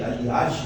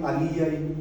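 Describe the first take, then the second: First: The final j sounds like 'zh'. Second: The final j sounds like a weak 'ee'. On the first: The speaker calls it wrong. "vocês vão pensar que é assim" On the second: The speaker calls it right. "isso daqui se lê assim"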